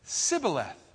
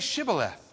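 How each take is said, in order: First: The word begins with a plain s sound. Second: The word begins with a sh sound. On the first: The speaker is an outsider from the enemy group. The speaker calls it wrong. "They couldn't pronounce the H" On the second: The speaker belongs to the group giving the test. The speaker calls it right. "Say Shibboleth"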